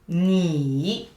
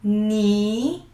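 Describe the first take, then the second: First: The pitch dips low and then rises. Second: The pitch rises steadily from mid to high. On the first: "Pay attention to the falling rising" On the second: "Rising one"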